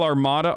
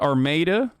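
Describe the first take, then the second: First: It is said the usual standard way. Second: It is said the local Michigan way.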